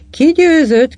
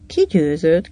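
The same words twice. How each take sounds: First: Loud, high-pitched asking; higher, louder, keen to know; eager question. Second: Said in the usual way. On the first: A narrator's reading. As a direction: ask who won, voice leaping up. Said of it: "kérdezte Mrs. Walker". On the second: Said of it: "kérdezte a hajó bébi".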